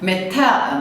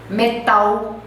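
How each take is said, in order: First: The final L is a clear tongue-tip L. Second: The final L sounds like a 'u' vowel. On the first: The speaker calls it right. "você põe a língua no céu da boca e pressiona" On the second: The speaker calls it wrong. "É como se fosse um U"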